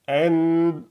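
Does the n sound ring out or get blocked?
blocked. The n is cut off and muffled. "je vais pincer le nez"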